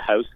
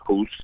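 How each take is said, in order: First: The vowel sounds like 'ow'. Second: The vowel sounds like 'oo'. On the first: The speaker calls it right. "hopefully y'all got the house" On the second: The speaker calls it wrong. "not hoose"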